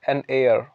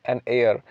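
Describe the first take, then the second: No difference in how they are said.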